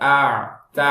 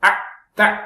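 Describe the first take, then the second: First: The sound is allowed to flow on. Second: The sound is cut off abruptly. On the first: The speaker calls it right. "அப்படின்னு அது ஃப்ளோவா விடணும்" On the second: The speaker calls it wrong. "அப்படின்னு கட் பண்ணக்கூடாது"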